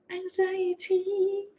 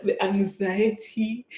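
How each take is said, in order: First: High, soft, drawn-out singsong; playful high-pitched wail, held long; mock anxiety. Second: Drawn-out mock dread, usual pitch; mildly dramatic, slow lament; retold anxiety. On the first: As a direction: stretch it high and thin, mocking your nerves. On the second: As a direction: stretch it out, lightly dramatizing the nerves. Retelling nerves before going live.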